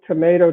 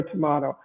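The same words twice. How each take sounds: First: Tomato with a long "ay", to-MAY-to; usual tomato. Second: Tomato with a broad "ah", to-MAH-to; alternate tomato. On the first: Lawyer likening two pronunciations, tomato as to-MAY-to. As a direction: say tomato the everyday American way, to-MAY-to. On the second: Lawyer likening two pronunciations, tomato as to-MAH-to. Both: Shown as a demonstration. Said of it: "It's like potato, potato".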